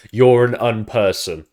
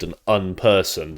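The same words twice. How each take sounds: First: Louder, slow taunt of "You're an unperson"; mock insult. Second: Said in the usual way. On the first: Shown as a demonstration. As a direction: fling "You're" at him like a jab.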